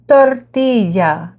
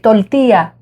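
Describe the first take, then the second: First: The word is said in full, every syllable clear. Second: The word is clipped, with sounds cut short. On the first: This is the usual way to say it. "instead of saying tortilla" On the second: This is how Puerto Ricans say it. "They uh, shorten them"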